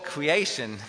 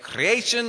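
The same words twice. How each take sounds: First: The R sounds like a W. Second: The R is rolled with a trill. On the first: "or I pronounce them as W's" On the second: "either I roll them"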